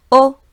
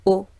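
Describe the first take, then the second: First: "o" on a high, level pitch; higher tone. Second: Said in the usual way. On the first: Shown as a demonstration. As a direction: say "o" louder and pitched up. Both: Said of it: "A higher o".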